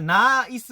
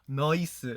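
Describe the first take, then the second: First: It is said with a standard plain vowel. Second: It is said with an Australian-style 'noice' vowel.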